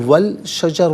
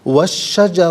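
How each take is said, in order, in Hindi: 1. L की आवाज़ sh से पहले बोली जाती है। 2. L की आवाज़ खामोश है, sh में मिल जाती है।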